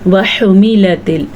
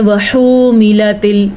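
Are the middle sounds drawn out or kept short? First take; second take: short; drawn out. First: The lam and meem are kept short. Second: The lam and meem are drawn out long. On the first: The speaker calls it right. "इसकी मिक़दार इतनी ही है जितनी मैं आपके सामने पढ़ रही हूँ" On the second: The speaker calls it wrong. "अमूमन लोग क्या पढ़ते हैं वहुमिलतिल ऐसे पढ़ लेते हैं, बिल्कुल गलत है"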